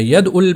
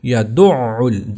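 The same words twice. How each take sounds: First: ید ال said quickly as "yad-ul"; light ید ال closing on d; wrong, no shadda. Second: یدع ال slow as "ya-DU'-'ul"; یدع ال with a held guttural middle; firm shadda. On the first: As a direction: skip the doubled ain in ید ال. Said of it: "ید ال نہیں پڑھنا اس کو". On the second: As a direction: press hard into the doubled ain of یدع ال. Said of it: "اس کو سختی سے پڑھنا ہے". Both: Shown as a demonstration.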